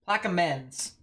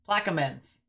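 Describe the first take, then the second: No difference in how they are said.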